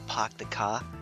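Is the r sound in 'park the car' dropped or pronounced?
dropped. The r sounds are dropped, Boston style.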